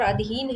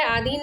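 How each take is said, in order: First: अधीन with a short opening "a"; contrasting short-vowel form. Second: आधीन with a long opening "aa"; incorrect form. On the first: Teacher contrasting it with the wrong word, short-vowel pronunciation of अधीन. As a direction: say अधीन as "uh-dheen". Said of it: "और अधीन है". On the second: Teacher pointing out the wrong word, long-vowel mispronunciation of आधीन. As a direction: say आधीन as "aa-dheen". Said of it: "आधीन अशुद्ध शब्द है". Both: Shown as a demonstration.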